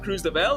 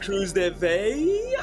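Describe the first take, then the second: First: The double L is said as an L sound. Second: The double L is said as a Y sound. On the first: The speaker calls it wrong. "it's not Cruz de Vel" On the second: The speaker calls it right. "the double L in like Spanish is a Y"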